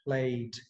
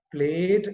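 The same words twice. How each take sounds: First: PLATE with a gliding 'eh-ee' vowel, low and slow; correct diphthong. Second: PLATE with one long 'ehh', no glide; wrong pure vowel. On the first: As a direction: glide slowly through the vowel of PLATE, "ple-it". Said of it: "it is plate". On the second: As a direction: say PLATE as "pleht", vowel held steady. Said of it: "It's not". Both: Shown as a demonstration.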